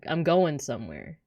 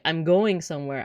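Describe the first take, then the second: First: The word 'going' ends with an 'n' sound. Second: The word 'going' ends with a full 'ng' sound. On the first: "dropping the G at the end of words" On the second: "instead of saying like"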